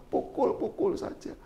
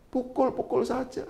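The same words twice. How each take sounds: First: "pukul-pukul saja" breathed slow and soft, almost whispered; whispered taunt. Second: Softer, higher quiet dare; soft taunt. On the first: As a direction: hiss the dare under your breath. Istri menantang, dibisikkan. ("pukul-pukul saja" dibisikkan pelan) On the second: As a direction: goad him gently. Istri menantang suami. ("pukul-pukul saja" diucapkan pelan menantang) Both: Retold or imitated.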